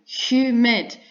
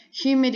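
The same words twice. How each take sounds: First: "humid" split into hu-mid; two separate, clearly marked beats on "humid"; syllable by syllable. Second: Said in the usual way. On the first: Shown as a demonstration. Teacher giving an example, "humid" broken into hu-mid. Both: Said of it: "Humid is two syllables".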